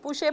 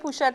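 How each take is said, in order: First: The name ends in a vowel with no final t. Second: The name ends with a sounded final t. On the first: This is the French form of the name. The speaker calls it right. "but it's really pouche" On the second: This is the local form of the name. The speaker calls it wrong. "we answer to both"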